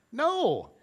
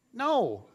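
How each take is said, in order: First: Higher, sharper mock refusal; firmer no. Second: A flat refusal with a laugh in it. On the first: Repeating the refusal to Jen, higher and firmer. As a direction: say no again, more emphatic. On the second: Retold or imitated. Refusing Jen's invite to teach kids, laughing. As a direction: laugh through a quick no. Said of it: "And I was like".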